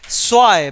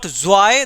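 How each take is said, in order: First: The word starts with a hissing s-like sound. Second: The word starts with a buzzing z sound. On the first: The speaker calls it right. "because again Z gives the sound of S" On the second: The speaker calls it wrong. "This is not zwei"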